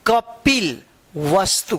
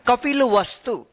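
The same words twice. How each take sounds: First: कपिल वस्तु said slowly, कपिल and वस्तु as separate parts; split into parts. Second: Said in the usual way. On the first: Shown as a demonstration. Teacher splits the word for young readers, slow and separate. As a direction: sound out कपिल, then वस्तु, with a break. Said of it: "उसको अलग-अलग तोड़कर एक साथ पढ़ दीजिए". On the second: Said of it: "अब इसको क्या पढ़ना है".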